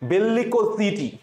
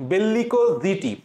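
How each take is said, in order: Both takes have the same delivery.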